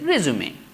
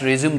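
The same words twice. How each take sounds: First: The final vowel is clearly sounded. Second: The final vowel is left silent. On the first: It is the noun meaning a biodata. "E is going to pronounce as a resume" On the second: It is the verb meaning to continue. "we will not have the last E"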